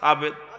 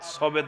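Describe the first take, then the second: First: The first vowel sounds like 'a'. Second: The first vowel sounds like 'o'. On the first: The speaker calls it right. "না সাবেদ" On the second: The speaker calls it wrong. "সবেদ না"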